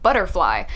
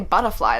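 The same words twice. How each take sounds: First: It is said with an American accent. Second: It is said with an Australian accent. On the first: This is how Americans say it. The speaker calls it right. "they say like butterfly" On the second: This is how the Australian actor said it. The speaker calls it wrong. "Americans don't say butterfly"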